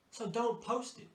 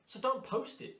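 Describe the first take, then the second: First: Each word slowed and spaced out, stressing "don't"; slow it right down, "don't" leaned on; slow, deliberate. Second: "don't" pitched high and punched hard; emphatic. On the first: Coach repeating the rule to stylists, slow and deliberate. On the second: Coach warning stylists, "don't" high and hard. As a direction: hit "don't" high and sharp, a firm warning. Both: Shown as a demonstration.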